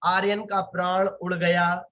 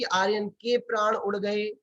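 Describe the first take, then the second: First: Aryan का प्राण उड़ गया offered as the faulty version; wrong singular shown. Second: Aryan के प्राण उड़ गए offered as the usual idiom; correct plural shown. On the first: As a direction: set out का and गया as the singular to question. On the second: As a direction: set out के and गए as the plural. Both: Shown as a demonstration. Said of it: "ऐसा बोलते हैं कि".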